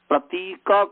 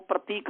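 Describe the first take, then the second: First: The word ends with a short final vowel. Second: The word ends on a consonant, with no vowel. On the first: The speaker calls it right. "प्रतीक को" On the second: The speaker calls it wrong. "प्रतीक कहते हैं, वहां पर हम अ खा गए"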